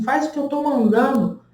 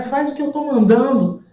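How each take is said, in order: First: Imitating a rude doctor, a bit higher; rude doctor's order. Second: Imitating a rude doctor, higher and harder; rude doctor's order. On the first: Doctor giving a rude order to the woman in labor, mock curt. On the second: Doctor repeating his order to the woman in labor, louder mock bark. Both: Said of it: "E ele super grosseiro".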